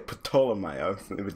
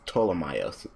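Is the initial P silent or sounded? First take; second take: sounded; silent. First: The initial P is sounded. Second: The initial P is silent. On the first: The speaker calls it wrong. "I always want to say Ptolemaios" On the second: The speaker calls it right. "the P is silent, so it's Ptolemaios"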